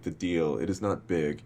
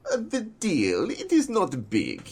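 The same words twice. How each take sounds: First: Said in the usual way. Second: Put-on high-pitched, drawn-out Russian accent; imitating an actor's slow Russian-accented line reading. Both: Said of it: "he said it in this Russian accent".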